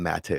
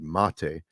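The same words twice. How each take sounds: First: The surname is pronounced in an anglicized way. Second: The surname is pronounced the Hungarian way. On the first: "it's become mate over the years" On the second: "exactly perfectly the way Hungarians would"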